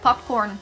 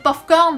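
First: It is said with an English-style pronunciation. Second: It is said with a French-style pronunciation. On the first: The word comes from English. "ça vient de l'anglais popcorn" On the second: The speaker cannot pronounce English well. "parce qu'ils sont pas bons en anglais et sont pas capables de prononcer"

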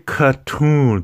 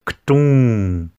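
First: A vowel sound comes between k and t. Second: No vowel sound comes between k and t. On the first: The speaker calls it wrong. "Don't say katun" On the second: The speaker calls it right. "There's no sound between that K and the T. It's ktun"

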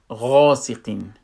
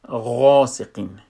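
The two takes are said the same way.

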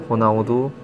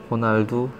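Both takes have the same delivery.

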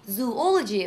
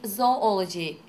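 First: The first syllable sounds like 'zoo'. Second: The first syllable sounds like 'zoh'. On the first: The speaker calls it wrong. "What messes people up is the presence of the word zoo in the beginning" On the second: The speaker calls it right. "It's zoology"

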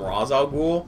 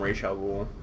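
First: The name is said the less formal way. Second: The name is said the more formal way. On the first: The speaker is not aligned with him and degrades his title. "If you're not aligned with Ra's al Ghul, you call him" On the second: The speaker is aligned with him and respects his title. "And if you're aligned with him, you call him"

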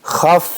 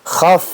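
Both takes have the same delivery.

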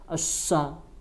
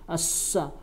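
The two takes are said the same way.

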